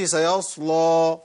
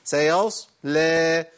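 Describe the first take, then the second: First: Thick, pouted ل and long "o" ending on "سيصلى"; thickened lam, wrong. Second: Very slow "سيصلى", heavy ص then a thin smiling ل with "eh" vowel; light lam. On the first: Teacher showing what to avoid, "سيصلى" with heavy lam. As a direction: say "سيصلى" with a heavy dark ل ending in rounded "law". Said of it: "إن اللام ما تغلظش". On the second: Teacher modelling correct reading, drawn-out "سيصلى" with thin lam. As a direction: pout on the ص, smile on the ل of "سيصلى". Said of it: "الابتسامة والتبويزة بتنفع هنا". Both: Shown as a demonstration.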